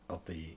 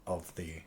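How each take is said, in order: The two takes are said the same way.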